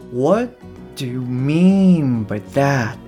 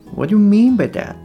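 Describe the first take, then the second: First: The sentence is spoken slowly. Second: The sentence is spoken quickly. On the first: "最初はゆっくり話していきますので" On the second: "で徐々に速くしていくと"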